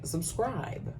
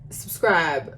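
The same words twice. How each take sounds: First: Soft, raised-pitch aside; hushed emphasis. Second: Said in the usual way. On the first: Real, not acted. Vlogger urging viewers at sign-off, hushed emphasis. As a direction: drop the volume right down, lift the pitch. Most important item, said differently.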